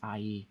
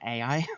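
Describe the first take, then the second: First: It is said as one syllable, like eye. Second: It is said as two letters, ay-eye. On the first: "in Hebrew, it would be pronounced more like I" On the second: "a lot of people call it A I"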